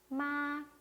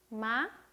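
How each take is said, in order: First: The pitch stays high, long and level. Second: The pitch rises lightly upward. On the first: "높고 길게 읽어라" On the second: "가볍게 올렸습니다"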